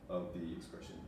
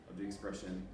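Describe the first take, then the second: The two takes are said the same way.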